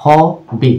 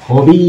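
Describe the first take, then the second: First: "হবি" broken into two parts, "হ" then "বি"; split into syllables. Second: "হবি" slowly, its final "ই" held long. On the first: Teacher showing what a syllable is, split into parts. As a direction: say "হবি" syllable by syllable, with a small gap. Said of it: "একটি শব্দের ছোট ছোট অংশ". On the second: Teacher showing the long Y ending, long final ee. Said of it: "দীর্ঘ ই". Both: Shown as a demonstration.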